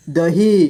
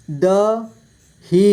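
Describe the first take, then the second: First: Said in the usual way. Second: दही split slowly into द, ही; syllable by syllable. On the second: Shown as a demonstration. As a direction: stretch and separate द and ही in दही. (दही को तोड़कर धीरे: द, ही) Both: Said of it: "इस तरह से आपको".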